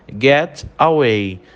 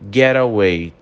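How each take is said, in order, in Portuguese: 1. As duas palavras são ditas devagar e separadas. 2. As duas palavras são ditas rápido, unidas. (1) "Devagar, a gente fala" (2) "quando a gente fala rápido"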